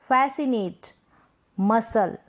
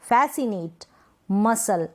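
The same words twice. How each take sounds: No difference in how they are said.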